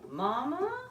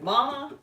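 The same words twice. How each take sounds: First: The pitch rises at the end like a question. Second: The pitch falls at the end like a greeting. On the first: The caller is asking where someone is. "like in a question type voice" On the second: The caller is greeting someone. "like hey mama"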